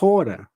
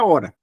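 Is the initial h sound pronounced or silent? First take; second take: pronounced; silent. First: It starts with a breathy h sound. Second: It starts directly with the vowel. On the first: This is how it is in the Greek original. "a menos que eu queira falar como está no grego" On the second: This is the ordinary Portuguese form of the word. "como está no português"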